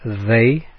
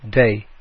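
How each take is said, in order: First: The word begins with a th sound. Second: The word begins with a d sound.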